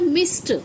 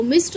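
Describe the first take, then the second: First: "मिस्ड" said as "mist"; correct t ending. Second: "मिस्ड" with a voiced d at the end; wrong d ending. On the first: Teacher gives learners correct मिस्ड, t ending. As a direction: end "मिस्ड" on t, not d. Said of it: "वो होता है मिस्ड". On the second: Teacher rejects the mistake, मिस्ड with d. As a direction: say "मिस्ड" as "miss-d". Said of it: "मिस्ड नहीं होता". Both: Shown as a demonstration.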